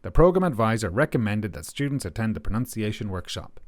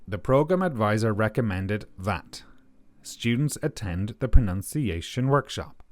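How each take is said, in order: First: The sentence is spoken at a quick pace. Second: The sentence is spoken at a slower pace. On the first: "that's me talking at a rather quick pace" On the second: "let's listen a little more slowly"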